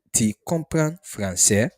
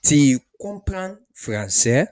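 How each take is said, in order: First: Said in the usual way. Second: Slow, louder Tu comprends français; slow model question. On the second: Shown as a demonstration. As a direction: teach it slowly.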